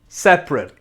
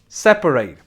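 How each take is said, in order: First: It is pronounced as the adjective form. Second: It is pronounced as the verb form. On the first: Something is divided or apart. "it's an adjective" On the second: The action of dividing something. "it's a verb"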